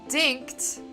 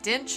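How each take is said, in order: First: The name ends with a kt sound. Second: The name ends with a ch sound. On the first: The speaker calls it right. "the T is like after the C H" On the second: The speaker calls it wrong. "I always thought it was Dinch"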